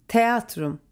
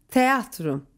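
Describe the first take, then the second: No difference in how they are said.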